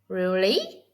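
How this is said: It sounds confused, dipping before rising. The speaker does not understand. "Imagine you are confused"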